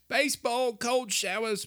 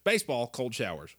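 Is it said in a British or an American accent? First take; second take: British; American. First: It is said in a put-on British accent. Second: It is said in a plain American accent.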